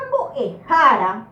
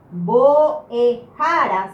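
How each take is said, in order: First: Said in the usual way. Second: Boejara slow, syllable by syllable, strong "ja"; acento no final. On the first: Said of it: "La palabra boejara". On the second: Shown as a demonstration. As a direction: spell out boejara by syllables, leaning on "ja" before the last. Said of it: "mucho más fuerte en esta sílaba". (boejara lento y silabeado, con "ja" fuerte)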